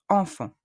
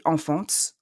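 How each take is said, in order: First: "enfant" ending on the nasal vowel; silent T and S. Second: "enfants" wrongly ending in a "ts" sound. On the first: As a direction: finish "enfant" nasal and open, no "ts". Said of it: "are silent". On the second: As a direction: voice the silent TS at the end of "enfants". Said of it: "Don't say enfants". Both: Shown as a demonstration.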